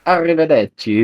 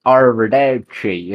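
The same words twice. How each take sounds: First: Arrivederci lilting, much higher, Italian style; proper Italian Arrivederci. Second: Put-on Arrivederci slow, in a thick English accent. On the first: Retold or imitated. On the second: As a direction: drag out Arrivederci like a clueless Englishman. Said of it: "with the thickest English accent ever".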